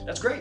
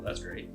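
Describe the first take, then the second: First: It sounds warm and excited. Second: It sounds flat and uninterested. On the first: The listener is genuinely happy for them. The speaker calls it right. "You got to have some emotion behind it" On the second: The listener is not really paying attention. The speaker calls it wrong. "The tonality there, oh, that's great. They're not even paying attention"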